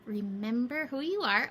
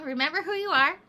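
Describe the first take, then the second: First: Said in the usual way. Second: Louder, higher, emphatic reminder. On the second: Shown as a demonstration. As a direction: lift it with emphasis. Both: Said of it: "Oh, we're back to that, huh?".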